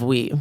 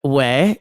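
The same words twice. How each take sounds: First: "oui" pronounced like "wee", lower; oui standard. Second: "ouais" pronounced casually like "way"; ouais alla francese. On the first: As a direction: say "oui" with a clear "ee" ending. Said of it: "instead of "oui". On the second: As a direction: say "ouais" with an open "eh" ending. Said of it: "people say "ouais" instead of "oui". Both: Shown as a demonstration.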